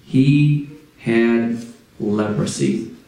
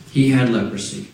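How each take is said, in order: First: Slow and lower, each word weighed; low, slow dramatic pause on leprosy; dramatic slow reveal. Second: Said in the usual way. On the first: Shown as a demonstration. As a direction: let the words sink in slowly.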